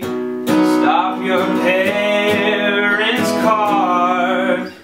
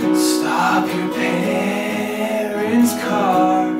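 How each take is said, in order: First: The voice is balanced, neither breathy nor tight. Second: The voice is breathy with air escaping.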